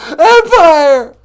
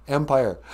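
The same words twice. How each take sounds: First: High loud indignant "Empire!"; shouted Empire. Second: Said in the usual way. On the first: Acted. Mock caller shouting his show's name at the host.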